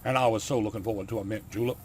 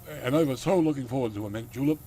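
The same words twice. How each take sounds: First: Put-on southern accent at a normal pitch; lightly done southern gentleman's accent. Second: Put-on hammier Dracula accent, a little raised; louder country Dracula accent, playing up the lament. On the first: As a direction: try the line in a mild southern accent. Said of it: "he's got a southern accent". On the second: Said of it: "the accent I gave him".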